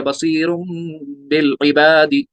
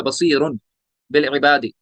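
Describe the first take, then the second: First: बसीरुन ending in a long hummed M before बिल; iqlab with ghunna. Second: बसीरुन ending on a plain N, then बिल separately; original unchanged noon. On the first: Teacher showing the change, बसीरुन hummed as M into बिल. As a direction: turn the N of बसीरुन to M and hold it. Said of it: "नून साकिन को मीम साकिन में बदल दिया". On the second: Teacher showing the original form, बसीरुन with an unheld N. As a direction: say बसीरुन with a short N, pause before बिल. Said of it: "ऐसे ये था". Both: Shown as a demonstration.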